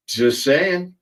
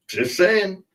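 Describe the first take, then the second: First: Said in the usual way. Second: Pitched way up on saying; high sing-song repeat. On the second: Shown as a demonstration. Repeating the joke to viewers, pitched way up. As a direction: toss it off in a high teasing tone.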